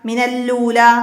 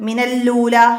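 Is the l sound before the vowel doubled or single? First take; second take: doubled; doubled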